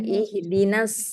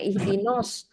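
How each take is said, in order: First: The vowel after n sounds light and open. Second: The vowel after n sounds heavy and rounded. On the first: The speaker calls it right. "but ihdinas siratal mustaqim" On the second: The speaker calls it wrong. "Tak ihdinos"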